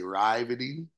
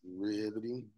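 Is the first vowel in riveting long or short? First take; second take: long; short. First: The first vowel is a long I sound. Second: The first vowel is a short i sound. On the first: The speaker calls it wrong. "you want to say the I, pronounce the I more with the E" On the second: The speaker calls it right. "but it's riveting"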